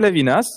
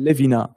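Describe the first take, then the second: First: The final s is pronounced. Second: The final s is silent. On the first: The speaker calls it right. "Une S finale qui est prononcée" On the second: The speaker calls it wrong. "je faisais le super en disant"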